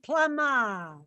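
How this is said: It is said in a Massachusetts accent.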